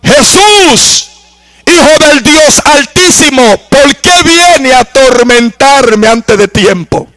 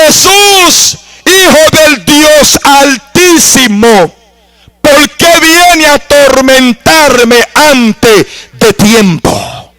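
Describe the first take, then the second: First: Lightly voiced demoniac calling out to Jesus; possessed man crying out. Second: High, drawn-out slow cry to Jesus; the demoniac repeating his plea, slow and high; possessed man crying out slowly. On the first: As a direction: plead as the tormented man. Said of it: "le dijo a gran voz". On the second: Retold or imitated. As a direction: stretch every word like a tormented soul. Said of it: "Le dijo".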